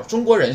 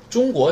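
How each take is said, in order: First: 中国人 in Japanese, chūgokujin, pitch held higher further into the word; changed pitch accent. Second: 中国 in Japanese, chūgoku, pitch falling after the first syllable; falling pitch accent. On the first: Teacher contrasts it with China, changed pitch accent. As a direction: carry chūgokujin up high before dropping on 中国人. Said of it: "调不一样". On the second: Teacher shows the word for China, falling pitch accent. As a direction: start chūgoku high, then drop for 中国. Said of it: "中国是中国降调". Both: Shown as a demonstration.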